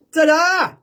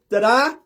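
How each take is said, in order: First: High, loud showman's reveal; big ta-da. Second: Small, slightly raised ta-da; tentative ta-da. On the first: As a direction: belt out a triumphant ta-da. Bigger repeat of trick reveal. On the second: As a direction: offer a modest little reveal. First go at a trick reveal. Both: Pretend.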